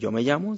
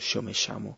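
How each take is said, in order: First: The ll sounds like English y. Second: The ll sounds like English sh. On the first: "En vez de decir yo me llamo" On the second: "se dice She"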